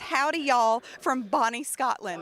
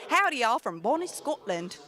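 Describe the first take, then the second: First: It is said in the speaker's normal accent. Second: It is said in a put-on Scottish accent.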